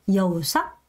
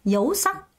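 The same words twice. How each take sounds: First: The first part falls in pitch. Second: Both parts of the word rise in pitch. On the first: The speaker calls it wrong. "이건 내려가는 거지 올라가는 게 아니죠" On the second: The speaker calls it right. "둘 다 올려야 되거든요"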